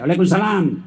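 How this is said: It is said in a firm, curt voice.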